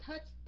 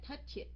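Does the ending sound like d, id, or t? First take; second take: t; id. First: The word ends in a plain t sound. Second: The word ends in an extra id syllable. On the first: The speaker calls it right. "chữ t" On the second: The speaker calls it wrong. "chữ it"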